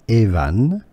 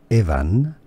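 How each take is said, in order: No difference in how they are said.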